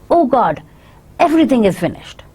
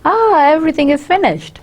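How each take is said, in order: First: It is said in an angry tone. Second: It is said in a happy tone.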